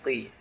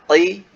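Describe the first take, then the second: First: The consonant is made slightly higher and softer. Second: The consonant is made very deep in the throat. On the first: The speaker calls it right. "agak di atas sedikit" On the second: The speaker calls it wrong. "itu masih terlalu dalam"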